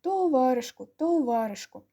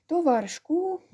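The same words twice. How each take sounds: First: "Товаришку, товаришку" chanted with weight on the "у" sounds, falling at each end; emphasis on "у". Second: "Товаришку" lifted high with a rising, lingering final "у"; drawn-out "у". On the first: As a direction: lean on every "у" in "товаришку", ending downward. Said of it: "зробивши наголос на звуках «у»". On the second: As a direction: stretch and raise the last "у" of "товаришку". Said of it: "протягло виділивши голосом «у»". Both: A narrator's reading.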